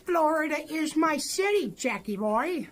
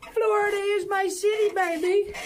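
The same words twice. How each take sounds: First: Said in the usual way. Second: Hype shout. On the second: Real, not acted. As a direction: shout out the home city with pride. Hyping his home city.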